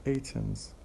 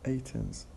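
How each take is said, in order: First: The T sound is pronounced only once. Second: The same.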